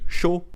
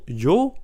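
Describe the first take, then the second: First: It begins with a 'sh' sound. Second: It begins with a 'y' sound. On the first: "pour eux, ça se dit chaud" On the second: "le pronom yo"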